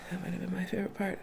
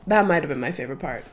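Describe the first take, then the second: First: Much softer, almost whispered; soft aside echo. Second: Said in the usual way. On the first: Real, not acted. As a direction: repeat it to yourself under your breath. Repeats the line twice.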